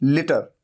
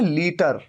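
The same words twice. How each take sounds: First: The first vowel is a short i sound. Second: The first vowel is a long ee sound. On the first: This is how it is said in English. "ल पे छोटी ई की मात्रा, लि लीटर" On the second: This is how it is said in Hindi. "Hindi में हम कहते हैं लीटर"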